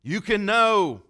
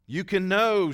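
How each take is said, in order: First: Slow, loud and higher, leaning on know; slow emphatic quote. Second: Emphatic quote. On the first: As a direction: hammer the certainty home slowly. Repeating Jane's firm claim. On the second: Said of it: "she said". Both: Retold or imitated.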